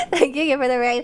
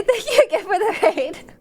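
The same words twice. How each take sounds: First: Said in the usual way. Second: Higher, giggling thank-you; laughing. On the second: Real, not acted. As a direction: thank them through a laugh. Laughing thanks then redo.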